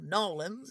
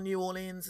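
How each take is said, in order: First: The name is squeezed into two short syllables. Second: The name is said in full, syllable by syllable.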